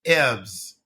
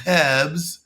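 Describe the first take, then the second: First: "herbs" with H dropped and short vowel; French learner's "herbs" without the H; French-accented "herbs", no H. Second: "herbs" as a French speaker, H attempted; French learner's "herbs" with a short vowel; French-accented "herbs". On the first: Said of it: "or in English they say". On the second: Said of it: "So a French person would say". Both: Shown as a demonstration.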